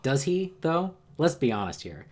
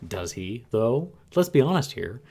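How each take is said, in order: First: It is read in the speaker's natural voice. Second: It is read in a put-on character voice.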